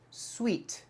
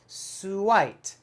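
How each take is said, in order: First: The word sounds exactly like 'sweet'. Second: The word sounds like 'suit' with an ending. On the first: The speaker calls it right. "The word is pronounced sweet" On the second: The speaker calls it wrong. "if I'm using my American phonics"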